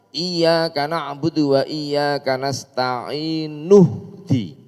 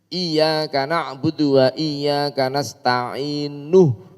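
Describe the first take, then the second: Both takes have the same delivery.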